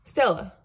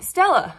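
First: Said in the usual way. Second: Sharp, high, loud call of the dog's name "Stella". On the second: Real, not acted. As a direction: snap "Stella" out high and loud to stop the dog. Calling the dog sharply.

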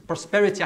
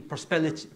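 First: Said in the usual way. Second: "prosperity" fumbled and broken off after "prospel"; stumbled word. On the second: Real, not acted. Professor stumbling on the theme's name, tongue-tied. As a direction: trip over "prosperity", swallowing its ending. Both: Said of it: "I can't even say it".

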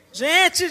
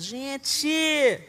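First: Louder, higher exasperated call out; exasperated cry. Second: Said in the usual way. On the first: Real, not acted. Mother to the church, loud exasperated cry. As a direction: cry out in mock despair.

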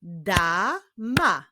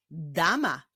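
First: "Dama" as da, pause, ma; "Dama" syllable by syllable; split into syllables. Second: Said in the usual way. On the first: Shown as a demonstration. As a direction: break "Dama" into two separate beats. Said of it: "Sylaby da i sylaby ma". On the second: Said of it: "Jest to wyraz dama".

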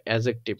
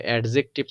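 First: অ্যাডজেক্টিভ said as "a-jective", no D; silent D. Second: অ্যাডজেক্টিভ split as "ad-jective"; mispronounced with D. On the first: Teacher correcting the students' reading, অ্যাডজেক্টিভ with silent D. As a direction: leave the D out of অ্যাডজেক্টিভ. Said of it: "ডি এর উচ্চারণটা আসবে না". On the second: Teacher rejecting a misreading, অ্যাডজেক্টিভ with D sounded. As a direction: voice the D in অ্যাডজেক্টিভ before the J. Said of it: "আসলে অ্যাডজেক্টিভ না". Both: Shown as a demonstration.

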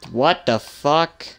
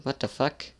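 First: Loud, slow "What the fuck?" with a rising end; drawn-out, louder "What the fuck?". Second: Softer, muttered "What the fuck?"; quiet what the fuck. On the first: Player reacting to the same screen, loud and drawn out. Startled by the game. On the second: Player muttering at a strange game screen, quietly. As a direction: say "What the fuck?" under the breath. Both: Real, not acted.

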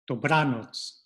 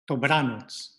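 First: Dobranoc with stress on BRA; first model take; penultimate stress. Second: Dobranoc repeated with BRA stressed; second model take; penultimate stress. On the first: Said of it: "second to last syllable". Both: Shown as a demonstration.

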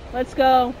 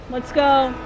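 No difference in how they are said.

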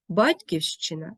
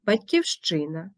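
First: Батьківщина as БАТЬківщина; stress on first syllable. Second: Батьківщина as батьківЩИна; stress on ЩИ. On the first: Teacher showing double stress, батьківщина stressed on БАТЬ. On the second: Teacher showing double stress, батьківщина stressed on ЩИ. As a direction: lean on ЩИ in батьківщина. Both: Shown as a demonstration. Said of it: "мають подвійний наголос".

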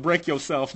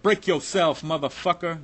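First: Said in the usual way. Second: Loud, high menacing bark; sudden loud street threat; retold robber yell. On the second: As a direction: bark it like a gunman at the window. Armed robber demanding at gunpoint.

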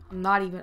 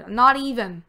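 First: Said in the usual way. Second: Not punched, louder with a falling end; stress on not. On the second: Shown as a demonstration. Redoing the phrase for viewers, punching not. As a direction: hit the word not and let it drop. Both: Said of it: "I gotta say it like that".

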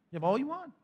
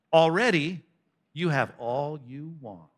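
First: High, soft mock disbelief; sarcastic marvelling, pitched up. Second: Slow, drawn-out sarcasm; sarcastic, dropping away slowly. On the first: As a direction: repeat it higher, rising in mock wonder. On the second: Acted. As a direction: draw the words out with heavy irony. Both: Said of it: "All that sarcasm".

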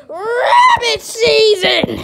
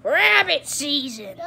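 First: Loud, slow, higher yell breaking into a laugh; mock shout. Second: Said in the usual way. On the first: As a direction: belt out the last word, laughing, hammed up. Climax of the season routine.

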